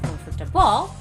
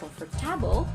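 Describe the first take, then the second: First: The stress is on the fourth syllable. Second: The stress is on the third syllable. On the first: "not on the fourth" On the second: "not on the third"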